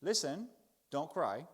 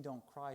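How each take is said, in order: First: Brusque stiff upper lip. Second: Gentle comfort. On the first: Pretend. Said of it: "which is to be British, stiff upper lip". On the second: Shown as a demonstration. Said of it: "that's not what he means".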